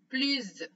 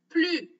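First: The word ends with a z sound. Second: The word ends on its vowel, no s. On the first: "quand on fait la liaison. Et dans ce cas-là, on va prononcer z" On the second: "on ne prononce pas la lettre S"

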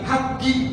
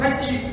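First: The middle consonant is a hard G sound. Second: The middle consonant is a J sound. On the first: This is the Hebrew pronunciation. "tapi haji" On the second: This is the Arabic pronunciation. "tidak menyebut haji"

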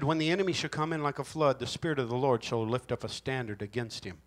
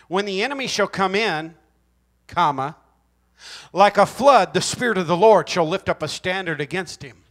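First: It runs on without a break after 'come in'. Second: There is a clear break after 'come in'.

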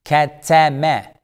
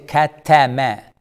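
Both takes have the same delivery.

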